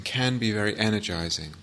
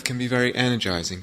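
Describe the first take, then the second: First: "can" said in full, weighted as a qualifier; stress on can. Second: Said in the usual way. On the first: Real, not acted. Teacher qualifying a claim about long breath, stressing "can".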